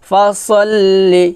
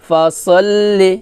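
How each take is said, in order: Both takes have the same delivery.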